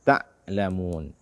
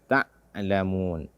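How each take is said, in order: No difference in how they are said.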